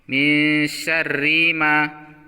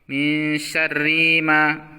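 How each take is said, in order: The two takes are said the same way.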